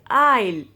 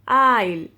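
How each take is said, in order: No difference in how they are said.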